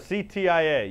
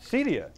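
First: It is spelled out letter by letter. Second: It is said as a single word. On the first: The speaker calls it right. "like CTIA, spelling it out" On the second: The speaker calls it wrong. "That's how you say it"

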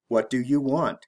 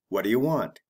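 First: The words are said slowly and separately. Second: The words are said quickly and run together. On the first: "The slow way" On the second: "The fast way"

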